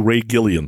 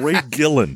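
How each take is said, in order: First: The surname has three syllables, Gil-li-an. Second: The surname has two syllables, Gil-lan. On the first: The speaker calls it wrong. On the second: The speaker calls it right.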